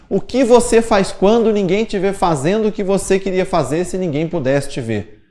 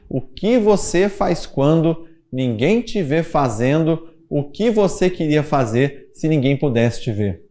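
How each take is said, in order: First: It is said at a normal pace. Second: It is said more slowly.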